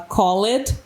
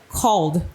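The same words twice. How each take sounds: First: It is pronounced with a Portuguese-style ending sound. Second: It is pronounced with an English-style ending sound. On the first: The speaker calls it wrong. "os alunos aí que se apoiam no som do português vai falar called" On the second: The speaker calls it right. "quando na verdade é called"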